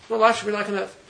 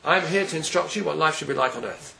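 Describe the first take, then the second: First: Repeated higher, stress on "life"; emphatic restatement. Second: Said in the usual way. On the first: Shown as a demonstration. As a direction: lift "life" and drive the point home.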